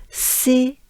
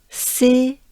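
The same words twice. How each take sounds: The two takes are said the same way.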